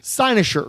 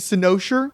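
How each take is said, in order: First: The first syllable does not sound like 'sin'. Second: The first syllable sounds like the word 'sin'. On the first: The speaker calls it right. "it's actually Cynosure" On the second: The speaker calls it wrong. "I was always saying Cynosure, which I think sounds cooler"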